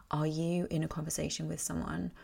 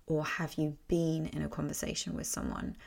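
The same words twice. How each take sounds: First: "are YOU" leaning on you; stress on YOU. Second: "have you BEEN" leaning on been; stress on BEEN. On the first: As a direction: put the weight on "you". Rhetorical question, first of two versions. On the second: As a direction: put the weight on "been". Question reworded, stressing the changed verb. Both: Shown as a demonstration.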